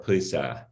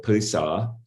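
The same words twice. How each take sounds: First: "Pisa" ending in a front "æ", as in cat; front-vowel ending. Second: "Pisa" ending in a back "ah"; back-vowel ending. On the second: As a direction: say "Pisa" with the final a far back, like "ah". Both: Shown as a demonstration. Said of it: "vacillating between a and a".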